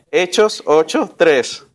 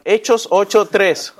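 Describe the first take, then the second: First: "Hechos ocho tres" said again slowly, each word spaced out; slow it down so the class can find Hechos ocho tres; slower repeat. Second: Said in the usual way. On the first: Shown as a demonstration. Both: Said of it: "Va de nuevo".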